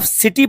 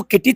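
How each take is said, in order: First: "सिटी" opening on an s sound; soft c reading. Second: "किटी" with a hard k at the start; wrong k reading. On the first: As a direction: read the c as s in "सिटी". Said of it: "इसको आप सिटी पढ़ेंगे". ("सिटी", शुरू में 'स' की आवाज़ के साथ) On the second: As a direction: misread the c as k in "किटी". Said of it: "किटी थोड़ी ना पढ़ेंगे". ("किटी", शुरू में 'क' की आवाज़ के साथ) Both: Shown as a demonstration.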